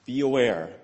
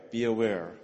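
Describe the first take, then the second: First: AWARE pressed firm and louder; a firm raised warning on "aware"; emphatic warning. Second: Said in the usual way. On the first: Shown as a demonstration. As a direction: hit "aware" as a stern caution.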